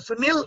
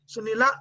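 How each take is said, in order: First: The name ends with no final vowel. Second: The name ends with a short final vowel. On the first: The speaker calls it wrong. "Sunil is ardhamatra" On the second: The speaker calls it right. "Sunila is one matra"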